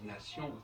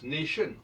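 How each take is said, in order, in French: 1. Le mot se prononce à la française. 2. Le mot se prononce à l'anglaise. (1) "les Français disent nation" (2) "Si on prend le cas de l'anglais"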